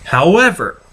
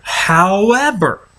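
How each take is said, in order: First: Said in the usual way. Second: However stretched slowly and high; slow drawn-out however. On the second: Real, not acted.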